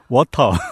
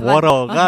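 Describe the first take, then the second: First: Water is said with a British clear t. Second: Water is said with an American flapped t.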